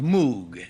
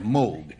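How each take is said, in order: First: The vowel is a long 'oo' sound. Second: The vowel is a long 'oh' sound. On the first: The speaker calls it wrong. "it's not pronounced Moog, which is the way it's spelled" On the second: The speaker calls it right. "I have it from the gentleman's mouth that it is spelled Moog"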